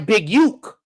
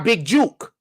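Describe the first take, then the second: First: The name starts with a Y sound. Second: The name starts with a J sound. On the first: The speaker calls it wrong. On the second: The speaker calls it right.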